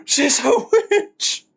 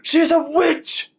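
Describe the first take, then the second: First: Slow, high, triumphant mock verdict; drawn-out verdict. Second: High, bright mock cry of accusation; witch accusation. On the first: Streamer finishing the witch logic quote, slow high mock verdict. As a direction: stretch witch out as the final proof. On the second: Streamer quoting the mob to chat, high mock accusing call. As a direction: call out the witch like an angry villager.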